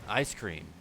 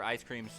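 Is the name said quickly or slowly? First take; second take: slowly; quickly. First: The name is said slowly and savored. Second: The name is said quickly, in passing. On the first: The speaker calls it right. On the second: The speaker calls it wrong.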